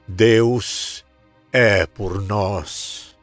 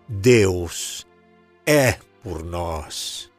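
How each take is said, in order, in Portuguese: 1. A palavra por é a tônica. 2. A palavra é é a tônica.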